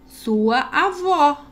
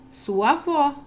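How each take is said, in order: First: "Sua avó." said slowly, drawn out with a falling exclamation; exclamatory reading. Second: Said in the usual way. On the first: Shown as a demonstration. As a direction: stretch out "Sua avó." and let it fall firmly. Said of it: "Ponto de exclamação". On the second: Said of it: "eu vou ler novamente o texto".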